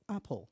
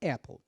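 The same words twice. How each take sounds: First: The first vowel sounds like an open 'ah', British style. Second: The first vowel sounds close to 'eh', American style. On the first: "no inglês britânico, ... É o som do A mesmo" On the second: "Apple in American English, ... eu pronuncio o som do E aí no meio"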